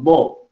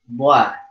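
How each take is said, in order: First: The vowel is thick and dark. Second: The vowel is thin and bright. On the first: The speaker calls it right. "maka dia dibunyikan tebal" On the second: The speaker calls it wrong.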